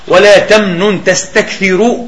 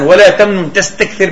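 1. الكلمة الأخيرة تنتهي بحركة قصيرة. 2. الكلمة الأخيرة تنتهي بدون حركة في آخرها. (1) "قراءة السبعة" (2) "قراءة الحسن ولا تمنن تستكثر بالجزم"

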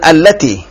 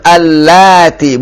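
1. Vokal setelah L dibaca pendek. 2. Vokal setelah L dibaca panjang. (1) "bukan allati" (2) "Sekarang kan allati, ... Panjang lamnya"

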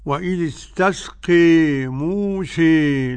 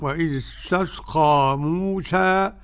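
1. الحركة الأخيرة تميل بشدة نحو e. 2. الحركة الأخيرة فتحة مفتوحة تماماً a. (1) "وقرأ حمزة والكسائي وخلف العاشر بالإمالة" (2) "بالفتح"

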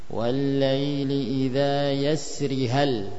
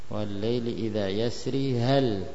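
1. Vokal akhir pada yasri dibaca pendek. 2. Vokal akhir pada yasri dibaca panjang. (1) "Itu dengan ya yang dihapus" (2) "dengan ya yang ditetapkan"

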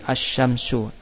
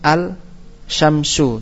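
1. L dibuang dan sh dibaca ganda. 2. L dibaca sebelum bunyi sh. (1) "harus membaca dengan membuang lam" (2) "Andai kan lamnya kita baca"

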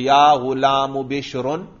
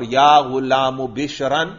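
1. آخری لفظ 'un' کی آواز پر ختم ہوتا ہے۔ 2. آخری لفظ 'an' کی آواز پر ختم ہوتا ہے۔ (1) "رفع بھی" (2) "اور نصب بھی"

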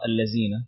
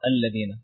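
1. الحرف الأوسط يُنطق مثل 'z'. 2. الحرف الأوسط يُنطق مثل 'th' في 'this'. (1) "تنطق بالخطأ الذين" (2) "اللسان ... يكون اللسان خارج ... فتنطق الذين"

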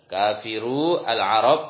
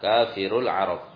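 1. Setiap kata diucapkan terpisah, dengan vokal penuh. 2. Kata-katanya menyambung, dengan vokal artikel dihilangkan.

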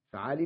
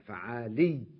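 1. صوت الياء الأخيرة قصير ومفرد. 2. صوت الياء الأخيرة مشدد ومُطوّل. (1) "فعالي بدون تشديد" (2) "هنا نريدها مشددة فعالي"

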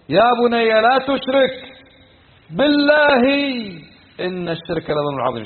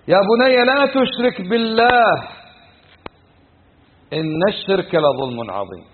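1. يكون الوقف قبل 'billah'. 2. يكون الوقف بعد 'billah'. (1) "لو وقف على غير الوقف هذه ... صارت هنا بالله قسم" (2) "يا بني لا تشرك بالله، لا تشرك بمن؟ بالله"

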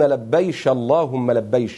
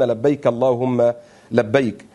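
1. تنتهي الكلمة بصوت "sh". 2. تنتهي الكلمة بصوت "k". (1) "هذه لهجة أهل اليمن" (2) "يعنون لبيك اللهم لبيك"

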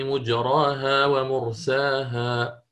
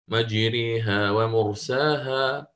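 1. المد بعد الراء مفتوح، ألف خالصة. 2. المد بعد الراء يميل نحو الكسر كثيرا. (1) "يقرأ مجراها بالفتح، ما عنده هنا إمالة ولكن يضم الميم" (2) "قرأه الإمام حفص بالإمالة الكبرى"

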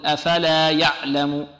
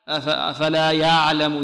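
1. صوت العين يُنطق شديدًا وقصيرًا. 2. صوت العين رخو وممدود. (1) "لعل بعض الطلاب يعطيها شدة" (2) "يأتي بها رخوة"

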